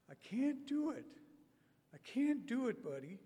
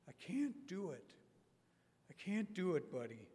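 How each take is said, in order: First: Remember him in his high voice; Robert's high voice. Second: Said in the usual way. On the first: Retold or imitated. Preacher recalling Robert's words in his high voice. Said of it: "that spirit of his lives on". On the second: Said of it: "I hear Robert's voice".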